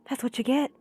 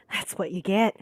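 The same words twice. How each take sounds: First: Whispered, a bit higher; menacing whisper; whispered menace. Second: Said in the usual way. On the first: Acted. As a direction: hiss it as a threat. Retake of villain line.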